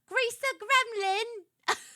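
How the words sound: It is said in a put-on British accent.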